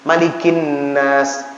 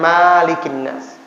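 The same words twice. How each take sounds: First: The first vowel of Malikin is short. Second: The first vowel of Malikin is long. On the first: The speaker calls it right. "Malam ini perbaiki" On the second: The speaker calls it wrong. "Jangan Malikin Nas. Salah itu"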